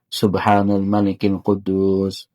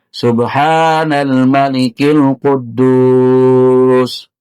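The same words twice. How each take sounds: First: It is said softly and at normal length. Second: It is said loudly and drawn out.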